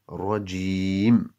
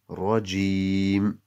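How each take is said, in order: First: The word ends on a bare m consonant. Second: The same.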